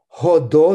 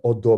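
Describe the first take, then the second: First: The word begins with a breathy h sound. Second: The word begins directly with the vowel. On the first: "Ходо значит ваше превосходительство на иврите" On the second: "если его произносить с пьемонтским акцентом, это становится одо без дыханием"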